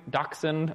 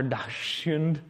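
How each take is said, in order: First: Said in the usual way. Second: Dachshund sounded out slowly as it is spelled, with a laugh. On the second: Shown as a demonstration. Lecturer retrying the German dog breed, slow and laughing. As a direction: drag out Dachshund letter by letter, chuckling at the German. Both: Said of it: "as I've spelled it here".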